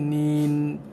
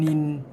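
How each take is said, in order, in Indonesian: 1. Vokalnya ditahan sebentar sebelum n. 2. Vokalnya pendek sebelum n. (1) "ada bunyi bagi masa sikit" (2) "Bukannya N I N nin"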